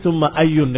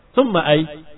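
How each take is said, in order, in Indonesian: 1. Kata itu diakhiri bunyi -un. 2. Kata itu tidak diakhiri vokal sama sekali. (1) "dengan tanwin, karena dia dalam keadaan tidak dimudhafkan" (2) "kamu sukunkan selamat"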